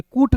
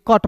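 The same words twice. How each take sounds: First: कूट with a long oo vowel, the wrong way; wrong reading. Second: कट with a short clipped a vowel; right reading. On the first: Teacher shows students the wrong reading कूट with a long oo. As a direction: say कूट stretching the oo sound. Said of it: "कूट नहीं ना पढ़ेंगे". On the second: Teacher gives students the correct reading कट with a short a. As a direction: say कट short, like cut. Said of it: "कट पढ़ेंगे". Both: Shown as a demonstration.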